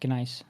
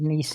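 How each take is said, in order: First: The word begins with a sounded G. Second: The word begins with a silent G. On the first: This is how it is said in Germanic languages. "that's what we call it in uh, Germanic" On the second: This is how it is said in English. "Nice, but without the the G is silent"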